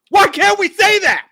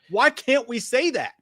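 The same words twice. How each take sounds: First: Much higher, much louder yelled question; frustrated shout. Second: Said in the usual way. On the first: Real, not acted. Podcast host yells his frustration at the co-host. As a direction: blow up at the unfairness of it. Frustrated rant about criticising Muschietti.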